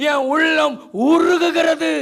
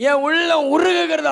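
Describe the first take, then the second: First: Slow, loud, drawn-out outcry; loud lament, stretched slowly; anguished cry. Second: Said in the usual way. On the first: Acted. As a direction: cry the line out as a broken plea. Psalm lament, preacher cries out.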